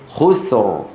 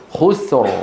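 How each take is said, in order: No difference in how they are said.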